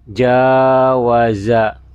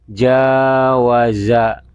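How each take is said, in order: No difference in how they are said.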